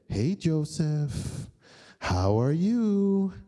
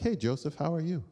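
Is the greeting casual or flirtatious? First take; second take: flirtatious; casual. First: It is said in a flirtatious, suggestive way. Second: It is said as a casual, friendly greeting.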